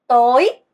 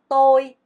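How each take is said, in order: First: The pitch rises through the word. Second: The pitch stays level through the word. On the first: It means evening. "성조가 올라가죠" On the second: It means I or me. "나를 뭐라고 한다?"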